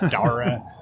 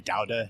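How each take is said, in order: First: It is said with an American-style pronunciation. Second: It is said with a Catalan pronunciation. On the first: People in Barcelona find this odd. The speaker calls it wrong. "they'll look at you weird if you say Dora or Daura" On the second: This is how people in Barcelona say it. The speaker calls it right. "that's the Catalan pronunciation"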